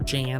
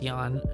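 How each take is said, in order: First: The name begins with a J sound. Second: The name begins with a Y sound. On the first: "as people say it" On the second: "It's pronounced as a Y"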